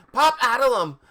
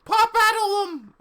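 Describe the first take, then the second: First: High, loud angry spell-casting; angry yell. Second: Very high, loud screeched spell; wrong character voice. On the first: Ebony pointing her wand at them, angry yell. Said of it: "I yielded angrily". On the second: Casting a spell in the wrong voice, squealed. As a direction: yell the spell in a squeal far above your own voice. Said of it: "that's, that's wrong voice". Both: A narrator's reading.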